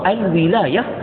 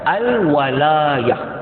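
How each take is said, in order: First: The vowel after w is i. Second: The vowel after w is a. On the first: It means rule and power. "dibaca dengan waw berbaris di bawah" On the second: It means help and support. "waw berbaris di atas"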